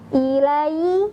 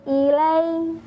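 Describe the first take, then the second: First: The glide is said stiffly and abruptly. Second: The glide is said softly and smoothly. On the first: The speaker calls it wrong. "tidak dibaca dengan kaku" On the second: The speaker calls it right. "tapi dibaca dengan halus"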